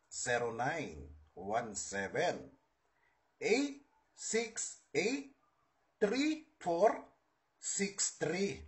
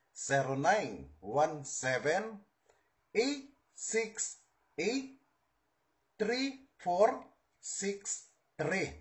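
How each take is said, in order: Both takes have the same delivery.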